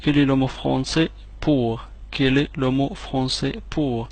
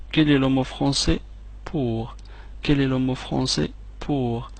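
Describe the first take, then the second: No difference in how they are said.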